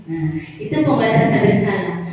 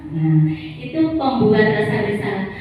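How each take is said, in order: No difference in how they are said.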